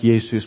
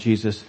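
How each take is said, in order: First: The name begins with a Y sound. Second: The name begins with a J sound. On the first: This is how most of the world says it. "So it should be something like" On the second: This is how English speakers say it. "but we call him"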